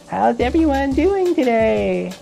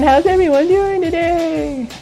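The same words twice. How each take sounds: First: It is said with low energy. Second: It is said with high energy.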